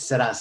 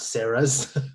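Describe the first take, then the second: First: The name is said with a Spanish pronunciation. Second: The name is said like the English name Sarah's. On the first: The speaker calls it right. "it's a Spanish accent. It's Seras" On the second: The speaker calls it wrong. "not Sarah's, because we're not, there's no Sarah"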